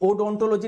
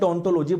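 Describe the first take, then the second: First: The word begins with a spoken O sound. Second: The word begins directly with a D sound. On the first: The speaker calls it wrong. "उसको ओडोंटोलॉजी नहीं बोलेंगे" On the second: The speaker calls it right. "डोंटोलॉजी बोलेंगे, ओ आपका silent रहता है"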